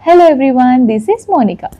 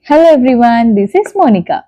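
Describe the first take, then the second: First: Noise suppression is at its highest setting. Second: Noise suppression is at its lowest setting. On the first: "ఇప్పుడు level త్రీలో ఉంది" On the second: "ఇది ఒక్కసారే press చేస్తాను"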